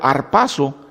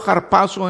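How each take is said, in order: First: The word begins directly with the vowel a. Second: The word begins with an audible h sound. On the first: This is the Spanish pronunciation. "sería pronunciado arpazo en, uh, en español, porque la, la H es uh, uh, silenciosa" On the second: This is the Greek pronunciation. "Pronunciado harpazo en, en griego"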